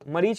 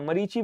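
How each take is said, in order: First: The word ends without a final vowel sound. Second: The word ends with a short final i. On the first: The speaker calls it wrong. "मरीच ना बोलना" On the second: The speaker calls it right. "मरीचि बोलते हैं इसको"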